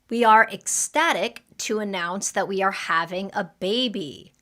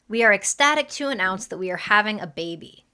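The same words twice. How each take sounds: First: It is said at a normal speed. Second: It is said a little faster.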